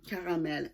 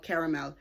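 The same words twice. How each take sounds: First: "Caramel" said the French way, stress on the last syllable; French accent. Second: Said in the usual way. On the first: Shown as a demonstration. Knitter correcting a yarn colour name, French accent. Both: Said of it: "let's go with the French accent".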